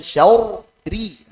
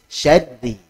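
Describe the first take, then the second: First: The doubled r is broken into two parts. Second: The doubled r is said at once, thin. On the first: The speaker calls it wrong. "diuraikan tuh. Ra tasdid kan ra sukun sama kasrah gitu. Akhirnya syauri. Nah, salah" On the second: The speaker calls it right. "Langsung tipis"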